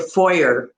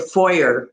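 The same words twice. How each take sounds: First: It is said with an American pronunciation. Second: The same.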